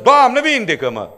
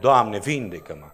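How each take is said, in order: First: It is shouted loudly. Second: It is said in a calm, normal voice. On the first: It is yelling at God. The speaker calls it wrong. "Țip la Dumnezeu" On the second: It is a sincere, quiet request. The speaker calls it right. "când mă rog, adică îmi spun"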